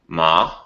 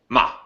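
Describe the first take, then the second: First: The pitch stays level and flat. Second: The tone is short and clipped. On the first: "there's a flat tone" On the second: "a short tone"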